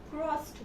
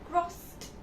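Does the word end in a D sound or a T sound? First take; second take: T sound; T sound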